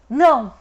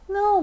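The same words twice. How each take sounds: First: It is said in an angry, harsh tone. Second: It is said in a soft baby-talk tone. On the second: "bebê"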